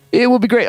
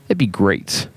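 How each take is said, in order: First: Will said high and punched; stress on will. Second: Said in the usual way. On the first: Shown as a demonstration. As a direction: lift the word will well above the rest.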